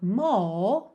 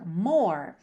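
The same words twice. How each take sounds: First: The R is dropped and the vowel lengthened, British style. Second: The R is pronounced, American style.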